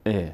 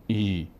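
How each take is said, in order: First: "ا" as a brief e; short e vowel. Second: "ای" stretched as a long ee; wrong long ee. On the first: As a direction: cut "ا" short as e, not ee. (اِ کوتاه) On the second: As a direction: draw out "ای" like ee. (ایِ کشیده) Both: Shown as a demonstration. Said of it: "نمیگیم ای".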